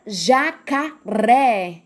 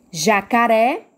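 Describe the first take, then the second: First: "jacaré" slowly syllable by syllable, landing on RÉ; stress on final syllable. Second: Said in the usual way. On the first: Shown as a demonstration. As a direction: spell out "jacaré" in beats, last one strong. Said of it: "É o ré". ("jacaré" pausado, com força no RÉ) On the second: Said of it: "qual é a sílaba mais forte".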